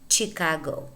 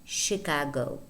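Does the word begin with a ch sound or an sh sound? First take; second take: ch sound; sh sound. First: The word begins with a ch sound. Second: The word begins with an sh sound. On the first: The speaker calls it wrong. "It is not Chicago" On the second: The speaker calls it right. "spelled C H but pronounced sh"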